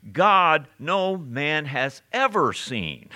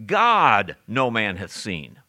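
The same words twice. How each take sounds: First: Slow and deliberate, "ever" lifted high and punched; "ever" set out emphatically in a slow line; stress on EVER. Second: "God" hit loud and drawn out, then the rest slower; slow line, all the weight on "God"; emphasis on God. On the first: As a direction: lean hard on "ever" after a weighty "God". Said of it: "notice how I emphasize that word ever". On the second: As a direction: set "God" apart up front with heavy emphasis. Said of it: "There's an emphasis here". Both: Shown as a demonstration.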